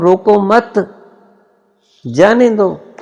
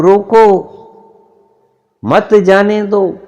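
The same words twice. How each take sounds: First: रोको मत run together high, pause, then जाने दो; high-pitched demonstration, stopping after रोको मत. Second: रोको loud and high, long pause, then मत जाने दो; high-pitched demonstration, stopping hard after रोको. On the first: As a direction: break after मत, not after रोको. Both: Shown as a demonstration. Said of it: "एक रुकने का, विश्राम लेने का अंदाज".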